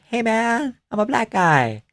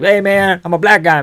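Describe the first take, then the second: First: It is said with a Valley Girl lilt. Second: It is said without a Valley Girl lilt. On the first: "But it's also like" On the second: "So it's like"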